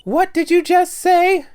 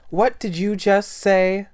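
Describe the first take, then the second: First: Slow, menacing character growl; lightly voiced menace; deep menacing voice. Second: High, loud, slow, shocked outburst; shrill outburst. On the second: Acted. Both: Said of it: "That's not her voice".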